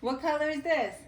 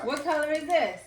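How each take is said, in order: First: Asking it through a laugh; laughing question. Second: High, bright game-show question; quiz show host. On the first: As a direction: ask it while laughing. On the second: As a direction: ask it like a playful quiz host. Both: Shown as a demonstration.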